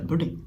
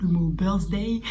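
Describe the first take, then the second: First: Birthday as bɔdɛ, no r, Russian-flavoured; mock Russian accent. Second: Birthday said with the r, bœʀzdɛj; plain birthday. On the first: The Russian au pair saying birthday, Russian accent. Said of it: "par exemple, le mot birthday". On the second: Shown as a demonstration. The vlogger giving the word birthday plainly. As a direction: say birthday in plain French-accented English.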